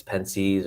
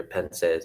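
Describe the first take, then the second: First: Pensees ending in a long "seez"; alternative pronunciation. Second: Pensees ending in "sez", not "seez"; preferred pronunciation. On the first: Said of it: "I don't know if it's". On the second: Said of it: "I'm pretty sure it's Pensees". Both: Shown as a demonstration.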